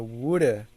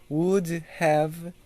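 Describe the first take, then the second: First: Have is reduced to a weak uh sound. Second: Have is said as a full separate word.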